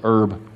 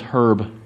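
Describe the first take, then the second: First: The word is said the American way. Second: The word is said the British way. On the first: "If you're in the United States, we say it correctly" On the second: "If you're in England"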